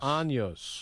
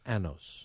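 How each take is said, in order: First: The middle consonant is an ny sound. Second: The middle consonant is a plain n sound. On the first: The speaker calls it right. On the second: The speaker calls it wrong. "No, that's what Borat says that you shouldn't say"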